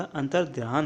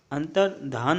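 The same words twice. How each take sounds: First: अंतर्ध्यान with a glide after dh; corrected form. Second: अंतर्धान with plain dh, no glide; incorrect form. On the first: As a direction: say अंतर्ध्यान as "antar-dhyaan". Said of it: "अंतर्ध्यान होता है". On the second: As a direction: say अंतर्धान as "antar-dhaan". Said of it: "अंतर्धान नहीं होता". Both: Shown as a demonstration.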